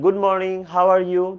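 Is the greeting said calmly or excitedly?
calmly. The greeting is said in a calm, plain way. It is an ordinary greeting. "তাহলে কিন্তু good morning এর পর কমা"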